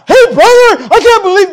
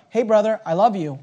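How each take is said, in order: First: High, loud, indignant confrontation; the wrong way to confront a brother, high and loud; accusing outburst. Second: The right way to approach a brother, gently; gentle approach. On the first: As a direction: burst out accusing your brother. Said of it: "no, no, no". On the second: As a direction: speak gently to your brother. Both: Acted.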